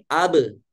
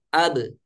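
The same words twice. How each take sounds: First: The final b is released into an 'a' vowel. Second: The final b ends in a short light bounce. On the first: The speaker calls it wrong. "Ketika memantulkan seperti ini, abe, abe, terangkat" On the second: The speaker calls it right. "Cukup abe, abe, aja, tidak aja"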